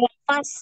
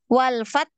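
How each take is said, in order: First: The final consonant ends with a hissing sound. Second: The final consonant stops, with only breath released. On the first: The speaker calls it wrong. "Jangan walfas ya" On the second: The speaker calls it right. "tertahan tak. Ini tertahan dulu suaranya ya"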